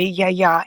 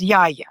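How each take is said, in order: First: Yaya said the Greek way, ya-YA; Greek pronunciation. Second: Yaya said the English way, YA-ya; English-style pronunciation. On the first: Explaining how grandmother is said in Greek, Yaya the Greek way. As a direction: stress the second syllable of Yaya, Greek-style. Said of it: "This is how you say Yaya in Greek". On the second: Explaining how non-Greek speakers say it, Yaya the English way. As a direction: stress the first syllable of Yaya, English-style. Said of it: "the English way". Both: Shown as a demonstration.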